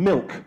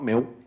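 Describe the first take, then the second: First: The final consonant is clearly pronounced. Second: The final consonant is dropped or weak. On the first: The speaker calls it right. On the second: The speaker calls it wrong.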